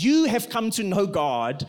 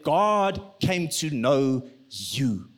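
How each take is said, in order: First: YOU leaned on before "have come to know God"; stress on YOU. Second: GOD drawn out, then a slow, lower YOU; weight GOD and YOU slowly; stress on GOD. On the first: Preacher shifting the emphasis, stress on YOU. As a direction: put the weight on YOU. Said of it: "the emphasis shifts, not to". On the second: Preacher shifting the emphasis onto God, slow stress on GOD. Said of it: "the emphasis shifts". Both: Shown as a demonstration.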